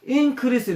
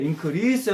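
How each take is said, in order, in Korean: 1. 강세는 첫 음절에 있어요. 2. 강세는 둘째 음절에 있어요. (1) "앞에 액센트를 주면 명사가 돼요 ... increase 이러면 증가요" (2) "뒤에 액센트를 주면 동후, 동사가 돼요 ... 증가하다가 돼요"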